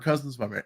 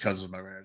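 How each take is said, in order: First: It sounds warm and happy. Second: It sounds dismissive and let down. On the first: The relation is welcomed. "cousins by marriage positive" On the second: The relation is seen as a disappointment. "I wouldn't say it like a negative"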